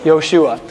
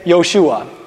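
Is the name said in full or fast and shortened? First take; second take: fast; fast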